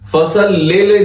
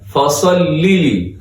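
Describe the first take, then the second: First: The syllables are said with an 'e' vowel. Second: The syllables are said with an 'ee' vowel. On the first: The speaker calls it wrong. "नहीं होता" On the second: The speaker calls it right.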